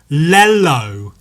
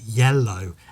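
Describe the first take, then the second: First: The word begins with an L sound. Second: The word begins with a Y sound. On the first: The speaker calls it wrong. "I pronounced it lello" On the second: The speaker calls it right. "he'd go yellow"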